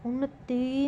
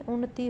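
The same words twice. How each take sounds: First: उन्नति with a long final ee; wrong pronunciation. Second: उन्नति with a short final i; correct pronunciation. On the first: Teacher showing a spelling error, उन्नति ending long. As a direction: stretch the end of उन्नति to "tee". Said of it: "नहीं". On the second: Teacher explaining the short vowel sign, उन्नति ending short. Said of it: "छोटी ई की मात्रा". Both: Shown as a demonstration.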